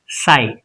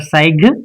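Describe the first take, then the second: First: The GH is not pronounced at all. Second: The GH is pronounced as a sound. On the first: The speaker calls it right. "it's sigh, just a sigh. G H is silent" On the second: The speaker calls it wrong. "it's not sig or sig"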